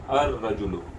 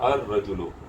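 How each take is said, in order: Both takes have the same delivery.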